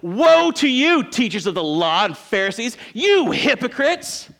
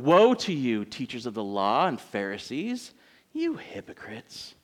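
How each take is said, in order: First: It is said forcefully, like an exclamation. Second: It is said in a mild, subdued way.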